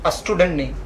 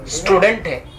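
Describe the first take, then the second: First: स्टूडेंट said as asटूडेंट with a short a before the s; wrong vowel start. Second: स्टूडेंट begins directly on s, no vowel before it; clean s start. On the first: Teacher mocking the wrong a-स्टूडेंट a student might say. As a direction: slip an a sound in front: a-स्टूडेंट. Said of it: "अगर अ निकल रहा है तो गलत है". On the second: Teacher giving the right स्टूडेंट after the wrong one. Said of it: "स से निकलता है". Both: Shown as a demonstration.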